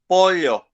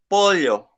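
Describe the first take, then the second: First: It is said in an older Paraguayan accent. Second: The same.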